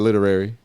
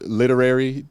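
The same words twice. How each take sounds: First: The syllables run together and get swallowed. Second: Every syllable is pronounced slowly and distinctly. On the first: The speaker calls it wrong. "otherwise it'd be like literary. It's like that ain't the word" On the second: The speaker calls it right. "I have to over enunciate to make it sound normal"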